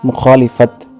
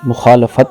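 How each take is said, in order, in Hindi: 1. 'l' के बाद का स्वर 'i' की ध्वनि है। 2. 'l' के बाद का स्वर 'a' की ध्वनि है। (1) "लफ्ज़ बोलते हैं" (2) "लाम पर ज़बर है"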